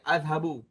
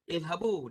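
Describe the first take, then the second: First: The word begins with an 'a' vowel. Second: The word begins with an 'i' vowel. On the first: The speaker calls it wrong. "Dia tidak boleh baca azhabu" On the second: The speaker calls it right. "jadilah izhabu"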